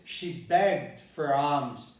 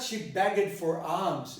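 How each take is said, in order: First: Begged has one syllable with no vowel before d. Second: Begged has two syllables with a vowel before d. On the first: The speaker calls it right. "It is" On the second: The speaker calls it wrong. "it's not"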